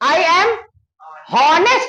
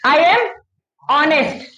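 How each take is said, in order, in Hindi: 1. Honest की शुरुआत एक साफ़ h की आवाज़ से होती है। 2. Honest की शुरुआत सीधे एक vowel की आवाज़ से होती है। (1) "हॉनेस्ट नहीं पढ़ते" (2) "ऑनेस्ट पढ़ते"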